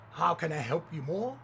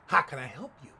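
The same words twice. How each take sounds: First: Imitating fawning, eager service; mock-gracious server; effusive courtesy. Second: Low, loud mock challenge; imitating an unfriendly cashier; curt server. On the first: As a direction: offer help with exaggerated politeness. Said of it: "Never such effusive courtesy". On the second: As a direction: demand it bluntly, without any welcome. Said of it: "looking at me with a head cocked".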